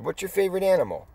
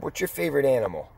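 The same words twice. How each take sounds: First: Higher, quick insistent repeat; repeated question. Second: Said in the usual way. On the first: Retold or imitated. Repeating the question to the puzzled resident, higher and insistent. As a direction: ask it again, pushing.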